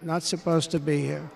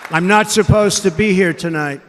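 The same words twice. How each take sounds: First: Quiet echo. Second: Emphatic, louder. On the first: Hushed echo of line. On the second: Repeated line, loud then hushed. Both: Real, not acted.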